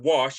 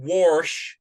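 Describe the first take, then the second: First: It is said in a standard accent. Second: It is said in a Western Kansas accent. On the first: "instead of" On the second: "In Western Kansas, they say things like"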